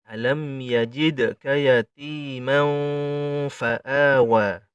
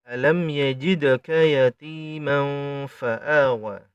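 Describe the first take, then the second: The two takes are said the same way.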